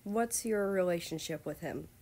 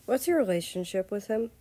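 First: Mixed emotions. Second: Louder, irritated question; annoyed. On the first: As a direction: ask again with tangled feelings held back. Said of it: "with many emotions mixed into that sentence". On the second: Jealous prince quizzes Russia, louder and annoyed. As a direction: demand it with open irritation. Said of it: "He said it in an annoyed tone". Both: A narrator's reading.

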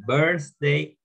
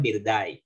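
First: "birthday" said slowly as berth-day; correct pronunciation. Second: "birthday" read as Spanish beer-die; Spanish-reading mispronunciation. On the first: Teacher modelling "birthday" for students, correct pronunciation. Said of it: "No digan birthday". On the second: Teacher showing students "birthday" misread in Spanish, mispronounced. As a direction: say "birthday" with a plain d and a die ending. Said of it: "porque me están leyendo en español". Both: Shown as a demonstration.

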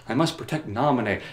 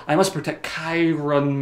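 First: Said in the usual way. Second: Chiron said in place of Namine, groping for it; fumbled name. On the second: Retold or imitated. Sora fumbling the name he vows to protect, Chiron. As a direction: say Chiron, sure it's wrong. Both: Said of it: "that's it".

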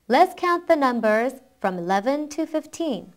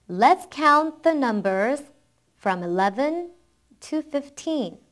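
First: Faster model reading in one go; quicker read-through. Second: Slow, phrase by phrase with pauses; slow model reading. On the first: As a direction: run the phrases together without pausing. (끊지 않고 조금 빨리 읽기) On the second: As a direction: read it slowly for learners to follow. (끊어 가며 천천히 따라 읽기 시범) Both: Shown as a demonstration. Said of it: "한번 빨리 읽어볼게요".

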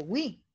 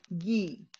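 First: "wi" as a w glide into i; U sounded in "wi". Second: "gui" as hard g straight into i; silent U in "gui". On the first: Teacher shows the unwanted reading, "wi" with sounded U. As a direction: say "wi" with the U fully heard. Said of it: "yo no la estoy pronunciando". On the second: Teacher shows students the right reading, "gui" with silent U. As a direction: say "gui" with no w glide. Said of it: "Estoy diciendo gue". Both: Shown as a demonstration.

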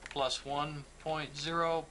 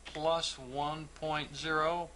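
No difference in how they are said.

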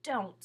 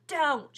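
First: Said in the usual way. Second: Mocking echo of Don't, higher and louder; sing-song mocking Don't. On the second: A narrator's reading. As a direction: throw Don't back mockingly. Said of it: "she mocked back".

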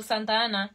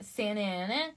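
First: "Santa Ana" with Spanish open a's and a sounded t; Spanish pronunciation. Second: "Santa Ana" as SAN-uh ANN-uh, the t dropped; American English pronunciation. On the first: Streamer showing her own way, Spanish "Santa Ana". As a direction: say "Santa Ana" the Spanish way, SAHN-tah AH-nah. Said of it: "Es que yo digo Santa Ana". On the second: Streamer trying the local way, American "Santa Ana". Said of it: "but it's Santa". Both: Shown as a demonstration.

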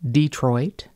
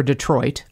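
First: "Detroit" as DEE-troit; dialect pronunciation. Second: Said in the usual way. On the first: Shown as a demonstration. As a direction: stress the first syllable of "Detroit", with a long ee. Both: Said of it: "three words that tripped me up".

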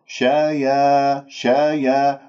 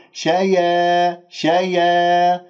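First: شايا slowly, with a plain open "yaa"; correct light ya. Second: شايا higher, its ending fronted to "yee"; tilted alif. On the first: Teacher corrects the misreading: slow open "shayaa" on شايا. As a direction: keep the يا of شايا open, neither darkened nor tilted. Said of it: "هذا خطأ". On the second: Teacher imitates the over-careful reader: higher, fronted, tilted شايا. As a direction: spread the tongue and tilt شايا toward "shayee". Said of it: "الألف ممالة". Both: Shown as a demonstration.

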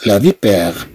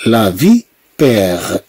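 First: Said in the usual way. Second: لا فيبير stretched slowly, each syllable held; slow teacher demo, vowels lengthened; slow, drawn out. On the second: Shown as a demonstration. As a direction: drag out فيبير slowly for the class. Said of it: "هنا فيها واحد الإطالة".

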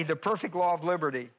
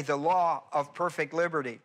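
First: "perfect" placed first, leaning on "the perfect law"; perfect before law. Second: "perfect" moved late, leaning on "perfect liberty"; perfect before liberty. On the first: Teacher contrasting word order for class, stressing perfect law. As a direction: say "the perfect law of liberty" with weight on "perfect law". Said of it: "watch the difference". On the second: Teacher contrasting word order for class, stressing perfect liberty. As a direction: say "the law of perfect liberty" with weight on "perfect liberty". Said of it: "Do you see the difference?".

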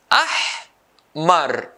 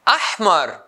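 First: "Ahmar" split into ah and mar, long pause between; syllable by syllable. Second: Said in the usual way. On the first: Shown as a demonstration. Teacher dividing a colour word, syllable by syllable. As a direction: break "Ahmar" into two isolated beats. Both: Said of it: "two syllables".

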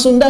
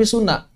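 First: Said in the usual way. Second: "Suna" with the d dropped into n; Sundanese dropped D. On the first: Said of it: "biasanya menghilangkan huruf D". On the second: Shown as a demonstration. Teacher showing how Sundanese say their name, "Suna" without d. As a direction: say "Suna", no d at all. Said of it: "Orang Sunda nggak bilang Sunda".

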